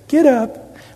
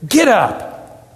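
First: It is said in a calm, neutral way. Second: It is said in a frustrated way.

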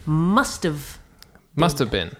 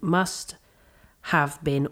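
First: 'Have' is reduced to a weak schwa sound. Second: Each word is said fully and separately. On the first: The speaker calls it right. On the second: The speaker calls it wrong. "we don't say it like that though"

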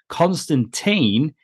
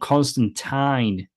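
First: The last syllable sounds like 'teen'. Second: The last syllable rhymes with 'line'.

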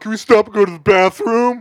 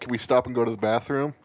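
First: It is said in a mocking, sarcastic tone. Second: It is said as a plain, sincere request. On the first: Mocking someone else's request. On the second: A genuine request to stop.

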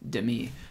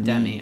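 First: The stress is on the second syllable. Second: The stress is on the first syllable. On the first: The speaker calls it right. "It's Demi" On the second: The speaker calls it wrong. "It's not Demi"

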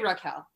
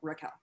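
First: The 'ah' vowel is drawn out and emphasized. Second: The 'ah' vowel is said plainly, not emphasized. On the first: Said this way so strangers hear the name correctly. "I say it like that because when I introduce myself to people, they don't hear me correctly. So I have to like emphasize the ah" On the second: This is the speaker's own natural way of saying it. "but I like say my own name, like Raquel"

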